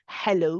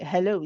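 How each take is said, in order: First: The h is squeezed hard in the throat. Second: The h is relaxed with no throat squeezing. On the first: The speaker calls it wrong. "we don't say hello" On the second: The speaker calls it right. "we say how hello. It's very uh, uh relaxed, very calm"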